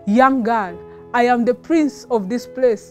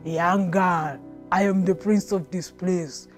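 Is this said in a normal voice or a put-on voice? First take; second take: normal; put-on. First: It is said in the speaker's ordinary narrating voice. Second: It is said in a put-on imitating voice.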